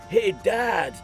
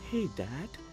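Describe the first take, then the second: First: It is loud and demanding, like a yell. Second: It is soft and calm, with no raised voice. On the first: The call is rude and bossy. The speaker calls it wrong. "Chase yells authoritatively" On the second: The call is polite. The speaker calls it right. "No raised tone, no raised voice, no yelling"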